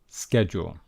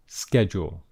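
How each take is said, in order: First: It is said with an American accent. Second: It is said with an American accent.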